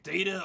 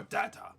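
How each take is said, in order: First: "Data" with a long A, DAY-tuh; one of two pronunciations. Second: "data" with a short A, DAT-uh; one of two pronunciations. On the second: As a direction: say "data" as DAT-uh or DAH-tuh. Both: Shown as a demonstration. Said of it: "How do you say it?".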